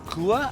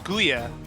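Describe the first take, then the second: First: The name is said without a 'y' sound: Gua. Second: The name is said with a 'y' sound: Guya. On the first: The name's owner says it this way. The speaker calls it right. "told me it's Gua" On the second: This is how the name was said before. The speaker calls it wrong. "I pronounced it as Guya before"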